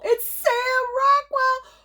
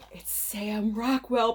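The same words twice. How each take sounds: First: Very high, slow, drawn-out shriek; high excited squeal. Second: Said in the usual way. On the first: Real, not acted. Announcing her favorite actor to viewers, squealing. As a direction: squeal the name like a thrilled fan.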